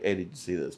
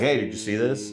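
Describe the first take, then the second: First: It is said quietly, in a low voice. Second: It is said loudly, in a full voice.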